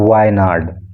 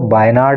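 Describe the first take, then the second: First: The word begins with a v sound. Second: The word begins with a b sound. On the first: The speaker calls it right. "इसको बोलना है वायनाड" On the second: The speaker calls it wrong. "इसको आपको बायनाड नहीं बोलना है"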